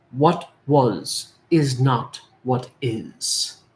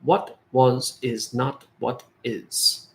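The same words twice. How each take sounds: First: Slow mantra. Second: Slow quoted answer. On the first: Shown as a demonstration. Mantra said slowly. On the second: Retold or imitated. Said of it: "his answer to me was".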